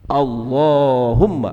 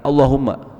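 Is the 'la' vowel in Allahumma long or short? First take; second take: long; short. First: The la vowel is drawn out long. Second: The la vowel is cut short. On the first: The speaker calls it right. "dibacanya panjang" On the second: The speaker calls it wrong. "bukan Allahumma"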